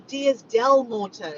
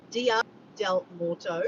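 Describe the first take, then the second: First: Slow "Dias del Morto", S sounded on "Dias"; final S on Dias. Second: Slow "Dia del Morto", no S on "Dia"; careful Spanish attempt. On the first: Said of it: "Not Diaz". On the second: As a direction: sound out "Dia del Morto" deliberately, ending "Dia" on A. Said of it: "Okay, I tried". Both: Real, not acted.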